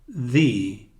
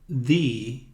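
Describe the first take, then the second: Both takes have the same delivery.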